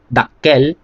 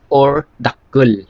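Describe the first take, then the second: First: Dakkel with a clear e, spoken normally; dakkel, the e version; dakkel pronunciation. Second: Dakkul drawn out slowly with a held kk; dakkul, slow teaching demo; dakkul pronunciation. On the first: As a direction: say dakkel, short and plain. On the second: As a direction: stretch out dakkul, slow and deliberate. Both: Shown as a demonstration. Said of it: "depende yung the way mo i-pronounce yan".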